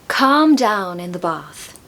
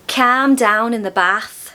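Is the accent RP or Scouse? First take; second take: RP; Scouse. First: It is said in a modern RP accent. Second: It is said in a Scouse accent. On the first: "I'll say them in modern R P first" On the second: "In Scouse"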